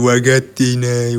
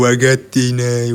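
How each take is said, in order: First: The second consonant is softened to a g sound. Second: The second consonant is softened to a g sound.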